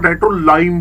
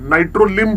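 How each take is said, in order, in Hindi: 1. अंतिम सिलेबल को शब्द 'lime' की तरह बोला जाता है। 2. अंतिम सिलेबल को छोटी 'i' की आवाज़ से बोला जाता है। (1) "दूसरा नाइट्रोलाइम बोलते हैं" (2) "पंचुएशन नंबर वन नाइट्रोलिम बोलते हैं"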